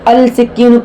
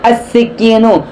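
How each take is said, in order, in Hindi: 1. s से पहले L ध्वनि साफ़ उच्चारित होती है। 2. L दोहरे s ध्वनि में मिल जाता है। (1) "पढ़ना गलत होगा" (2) "लाम नहीं पढ़ेंगे"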